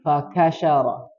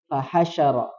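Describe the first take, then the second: First: The second consonant is a hard k. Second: The second consonant is a soft h. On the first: The speaker calls it wrong. "ha tadi mohon maaf terbacanya ka" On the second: The speaker calls it right. "yang betul ha"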